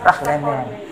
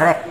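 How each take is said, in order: First: The G sounds breathy, close to an H. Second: The G is a hard G sound. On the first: The speaker calls it right. "agak menghampiri H" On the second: The speaker calls it wrong. "jangan dibaca rek"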